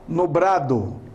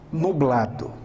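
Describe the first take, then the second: First: It has an R sound instead of L. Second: It has a plain L sound. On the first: This is the regional Cuiabá way of speaking. "trocamos o L pelo R" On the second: This is the standard way of speaking. "no lugar de"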